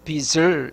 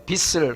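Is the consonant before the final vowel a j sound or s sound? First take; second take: j sound; s sound. First: The middle consonant sounds like a j. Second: The middle consonant sounds like an s. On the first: The speaker calls it right. "빚을 이렇게 발음해야 됩니다" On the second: The speaker calls it wrong. "시옷으로 발음하는데 ... 빚을 하면 안 되고"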